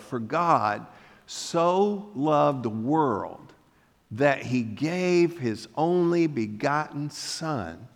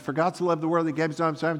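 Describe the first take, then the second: First: It is read slowly, taking time. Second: It is read quickly, rushing through.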